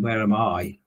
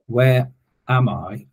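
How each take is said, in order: First: The stress is on "I". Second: The stress is on "am".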